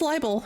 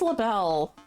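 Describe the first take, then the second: First: The first syllable sounds like 'lie'. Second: The first syllable does not sound like 'lie'. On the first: The speaker calls it right. "No, it's libel" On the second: The speaker calls it wrong. "I think it's LaBelle"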